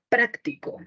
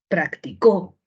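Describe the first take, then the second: First: The stress is on the first syllable. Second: The stress is on the last syllable. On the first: "puedo mover la sílaba tónica" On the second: "puedo mover la sílaba tónica"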